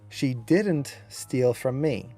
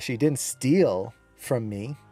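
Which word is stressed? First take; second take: didn't; steal. First: The stress falls on the word didn't. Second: The stress falls on the word steal. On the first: "You can see how the accent was on didn't" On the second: "She did something else, just didn't steal"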